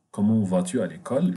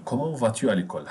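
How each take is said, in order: First: L'école lifted at the end as a clear question; careful model question. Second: Brisk run-through of the question; quick model question. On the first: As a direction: say it at an even pace, rising on l'école. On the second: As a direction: rattle it off fast. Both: Shown as a demonstration. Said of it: "teacher models the question twice".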